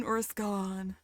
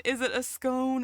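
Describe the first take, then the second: First: "scone" rhyming with gone; short O pronunciation. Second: "scone" rhyming with bone; long O pronunciation. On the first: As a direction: say "scone" with an open vowel, "skon". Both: Shown as a demonstration. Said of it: "How do I pronounce that?".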